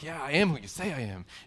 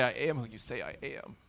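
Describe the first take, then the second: First: It is said triumphantly. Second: It is said with remorse.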